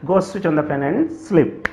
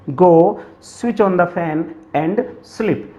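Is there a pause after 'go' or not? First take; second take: no pause; pause. First: It flows fluently without a pause after 'go'. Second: There is a short pause after 'go'.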